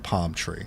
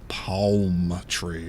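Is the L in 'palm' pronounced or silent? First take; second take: silent; pronounced. First: The L in palm is silent. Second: The L in palm is clearly pronounced. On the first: "I'm gonna say palm tree" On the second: "I'm not gonna say palm tree"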